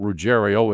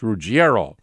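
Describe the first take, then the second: First: The name is said with an anglicized pronunciation. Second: The name is said with an Italian pronunciation. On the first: This is how the family and local fans say it. The speaker calls it wrong. "his family pronounces it Ruggiero. All the race fans pronounce it Ruggiero" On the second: This is the original Italian form of the name. The speaker calls it right. "You have an Italian background, you know better"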